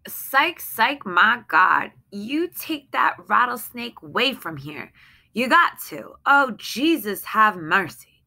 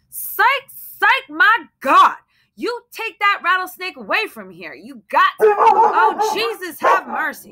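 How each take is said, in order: First: Frightened pleading, higher but held in; anxious pleading. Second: High, loud panicked pleading; terrified shriek. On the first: Wife begs husband to remove the snake, tense but restrained. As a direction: beg him, scared but contained. Same lines read again, calmer. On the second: Terrified wife begs husband to remove the snake, shrieking high. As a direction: shriek it at him, begging him to take it away. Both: Acted.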